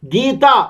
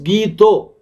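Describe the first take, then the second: First: The word ends in an open 'a' sound. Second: The word ends in a rounded 'o' sound.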